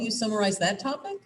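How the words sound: The pitch rises at the end. The listener is questioning what was said. The speaker calls it wrong. "You hear how it went up at the end?"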